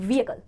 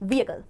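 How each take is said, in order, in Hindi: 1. h sound हल्का और मिला हुआ है। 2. h साउंड हल्का और मिला हुआ है।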